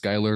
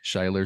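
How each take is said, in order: First: The name begins with an 'sk' sound. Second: The name begins with an 'sh' sound. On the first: The speaker calls it right. "my name is Skylar" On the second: The speaker calls it wrong. "A lot of people pronounce it incorrectly"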